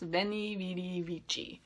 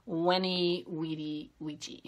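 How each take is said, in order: First: It uses the common everyday English-style pronunciation. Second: It uses the classical Latin pronunciation, sounding soft. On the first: The speaker calls it wrong. "I'm just going to mispronounce it like everybody else" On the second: The speaker calls it right. "this is actually pronounced Weni, Weedy, Weegee. It sounds wimpy like that"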